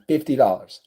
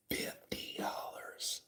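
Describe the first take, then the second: First: Said in the usual way. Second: Slow, drawn-out whisper; dramatic whisper. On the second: Real, not acted. Storyteller repeats the tip amount for effect, slow whisper.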